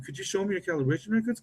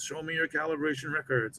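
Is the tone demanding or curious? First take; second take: curious; demanding. First: It sounds friendly and curious. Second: It sounds like a demanding inspector.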